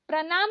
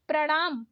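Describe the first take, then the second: First: प्रणाम with plain न; wrong dental N. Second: प्रणाम with curled-tongue ण; correct retroflex ण. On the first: Teacher showing learners the mistake, dental-N प्रणाम. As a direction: say प्रणाम as प्रनाम. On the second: Teacher correcting learners, retroflex प्रणाम. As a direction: curl back for ण in प्रणाम. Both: Shown as a demonstration. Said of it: "नहीं".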